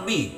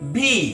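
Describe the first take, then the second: First: The letter is said lightly, without extra pressure. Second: The letter is said with a bit of pressure. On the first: The speaker calls it wrong. "Not বি" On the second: The speaker calls it right. "একটু stress, একটু চাপ আসবে।"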